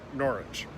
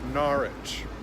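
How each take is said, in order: First: The middle vowel is short. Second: The middle vowel is a longer ah. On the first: This is how most knowledgeable speakers say it. "Most people that know how to pronounce it, pronounce it" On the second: This is how the locals say it. "The locals have an interesting sound. They make it sound more like Norwich, so a longer ah"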